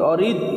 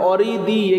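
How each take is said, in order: First: The word ends on a bare consonant. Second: The word ends with an 'i' vowel. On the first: The reader stops at this word. "শেষ করলে থামলে অরিদ হবে" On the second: The reading joins on to the next words. "আমরা মিলিয়া পড়ব"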